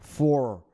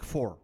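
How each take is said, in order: First: "Voor" louder with an overdone Leiden R; exaggerated Leiden "Voor"; thickened Leiden accent. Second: Said in the usual way. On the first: Shown as a demonstration. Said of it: "mijn Leidse accent een beetje aandik". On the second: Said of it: "Maar normaal zeg ik voor".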